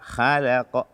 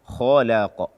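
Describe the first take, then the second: First: The first consonant is light and thin. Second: The first consonant is heavy and thick. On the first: The speaker calls it wrong. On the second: The speaker calls it right.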